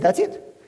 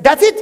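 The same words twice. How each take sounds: First: "That's it" lower and softer than a question; matter-of-fact answer. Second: "That's it" higher and louder, rising as a question; questioning reaction. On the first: Father confirms to son, "That's it" said low and plainly. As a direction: keep "That's it" low and contained, with a small lift. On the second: Son questions father's simple advice, "That's it" loud, high and rising. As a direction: push "That's it" up in pitch and volume. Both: Retold or imitated.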